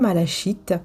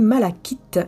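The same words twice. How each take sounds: First: The middle consonant is a soft sh sound. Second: The middle consonant is a hard k sound. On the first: The speaker calls it wrong. "et non pas malachite" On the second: The speaker calls it right. "ça se dit malachite"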